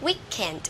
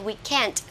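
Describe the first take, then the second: First: The stress is on the first syllable. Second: The stress is on the second syllable. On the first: This is the American way of saying it. "theo cách của người Mỹ sẽ là weekend" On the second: This is the British way of saying it. "nhấn vào âm hai weekend theo cách của người Anh"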